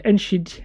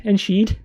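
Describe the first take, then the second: First: Enschede as en-sheed, tentative and falling; first try at Dutch name. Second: Enschede as en-sheed, a bit louder and surer; confirming the Dutch name. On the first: Pronouncing his Dutch town for viewers, tentative try. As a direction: feel out Enschede carefully. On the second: Repeating his town's name for viewers, more sure. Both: Shown as a demonstration. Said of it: "I'm gonna try and pronounce this".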